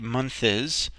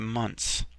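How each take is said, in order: First: The word ends with an extra syllable. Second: The word ends in a plain s sound. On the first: The speaker calls it wrong. "we don't say month is" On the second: The speaker calls it right. "we say months"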